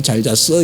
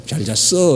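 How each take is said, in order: First: Lower, blunt Gyeongsang dialect greeting; a curt Gyeongsang good morning. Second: Said in the usual way. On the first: Shown as a demonstration. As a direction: toss it off gruffly the hometown way. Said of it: "우리 고향 말이". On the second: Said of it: "그 뜻은 그래요".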